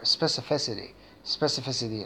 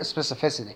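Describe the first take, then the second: First: The word is said at a medium pace. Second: The word is said at a fast pace. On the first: "and then make it a little bit faster" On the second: "and faster"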